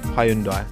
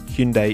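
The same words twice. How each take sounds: First: The name is pronounced a non-Korean way. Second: The name is pronounced the Korean way. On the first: The speaker calls it wrong. "Not Hyundai" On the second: The speaker calls it right. "Hyundai is how the Koreans pronounce it"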